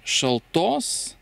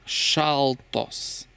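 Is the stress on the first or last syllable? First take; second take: last; first. First: The stress is on the last syllable. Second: The stress is on the first syllable. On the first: It is the genitive singular form, 'of cold'. "не шалтос" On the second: It is the nominative plural form, 'cold ones'. "Здесь ударение уже на шалтос, а не короткое, но ударение падает на а"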